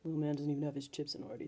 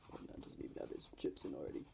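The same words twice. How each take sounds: First: A low voice without any rumble. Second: A low voice with a rumble added. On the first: "It could it could go lower" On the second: "And then we add the rumble"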